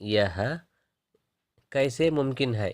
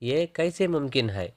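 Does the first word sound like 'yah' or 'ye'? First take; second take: yah; ye. First: The first word is said in full as 'yah'. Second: The first word is shortened to 'ye'. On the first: This is the standard form. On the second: This is the everyday spoken form.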